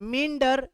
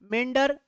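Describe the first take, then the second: First: The first vowel is a single 'ee' sound. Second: The first vowel is a single 'eh' sound. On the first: "मिंडर आई वाला मिंडर" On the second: "दूसरा मेंडर ए वाला"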